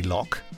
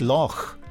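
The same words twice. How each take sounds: First: It ends with a hard k sound. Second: It ends with a throaty ch sound. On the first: This is the usual English way to say it. "it's quite common for English people to say Loch" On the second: This is the Scottish way to say it. "The correct pronunciation is Loch"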